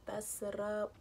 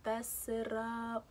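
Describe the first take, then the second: First: Said in the usual way. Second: Slow, stretched fess it up; drawn out. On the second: Shown as a demonstration. Repeating her own phrase to the viewers, slow and drawn. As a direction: savour the phrase slowly. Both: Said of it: "I was about to fess it up".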